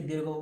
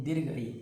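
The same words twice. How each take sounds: First: "दीर्घो" with an o ending, said by mistake; slip of the tongue. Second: "दीर्घ ई" as two separate words, no o ending; corrected "दीर्घ ई"; corrected form. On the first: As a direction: say "दीर्घो" as a wrong ending, then correct it. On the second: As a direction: carefully say "दीर्घ ई" after the slip. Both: Real, not acted. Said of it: "sorry दीर्घो नहीं".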